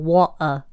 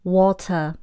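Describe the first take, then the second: First: The t sound is dropped. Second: The t sound is pronounced.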